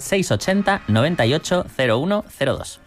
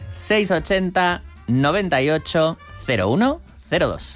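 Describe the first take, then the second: First: The number is said fast. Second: The number is said slowly.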